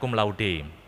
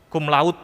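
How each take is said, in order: First: The final e of laude is pronounced. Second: The final e of laude is silent. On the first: The speaker calls it right. "yang benar cum laude" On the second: The speaker calls it wrong. "bukan seperti bahasa Inggris yang E-nya kemungkinan tidak dibaca"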